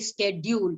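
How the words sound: It mixes British and American pronunciations. "You cannot mix the two and say schedule. So that sounds very very odd"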